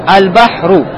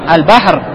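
First: The word ends with a short u vowel. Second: The word ends on a bare consonant. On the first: "Будет дамма" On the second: "И не ставлю дамму в конце?"

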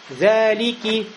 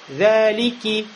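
The two takes are said the same way.

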